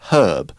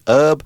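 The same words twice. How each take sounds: First: It is said the British way, H pronounced. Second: It is said the American way, H silent.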